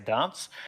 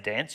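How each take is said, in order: First: The word is said with a New Zealand vowel. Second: The word is said with an American vowel. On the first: "You say dance" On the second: "that's how you say it in America"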